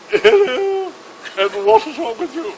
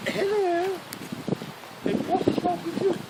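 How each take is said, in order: First: High, louder mock-regal hello; hammed-up high-pitched royal greeting; more regal Queen. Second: High, drawn-out mock royal hello; hammed-up princess. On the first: The Queen visits the same chap's bed, in a high, grander regal voice. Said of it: "more regal". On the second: Princess Anne visits a wounded soldier's bed, in a high mock-royal voice. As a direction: put on a high-pitched princess voice. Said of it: "she walks up to the first bed".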